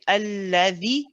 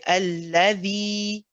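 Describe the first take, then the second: First: The final vowel is cut short. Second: The final vowel is held for two counts. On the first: The speaker calls it wrong. "we don't say alladhi" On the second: The speaker calls it right. "we say alladhi, the, make it two two counts"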